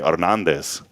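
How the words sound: It is said with a Spanish rolled R.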